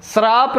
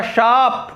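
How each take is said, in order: First: श्राप with an r, srāp; wrong pronunciation. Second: शाप with sh and no r, shāp; correct pronunciation. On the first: Teacher rejecting what celebrities say, wrong pronunciation. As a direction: say श्राप as s-RAAP. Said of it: "श्राप नहीं होता". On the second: Teacher giving the correct reading, correct pronunciation. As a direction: say शाप as SHAAP. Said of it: "शाप इसको पढ़ेंगे". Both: Shown as a demonstration.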